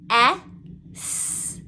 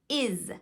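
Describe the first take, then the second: First: A full eh vowel, then an s sound. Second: A short lazy vowel, then a z sound. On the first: The speaker calls it wrong. "they will say eh, s. But we know that it's not S" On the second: The speaker calls it right. "we are adding a schwa and the z sound. So it sounds more like is"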